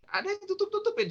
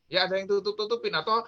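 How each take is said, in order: First: Tutup-tutupin jumps far higher, then falls; suspicious high tone. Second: Said in the usual way. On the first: Shown as a demonstration. Suspicious hidden gestures explained. (nada tinggi curiga pada "tutup-tutupin")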